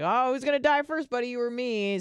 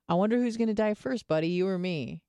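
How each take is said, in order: First: It is said in a light, joking tone. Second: It is said in a somber, heavy tone.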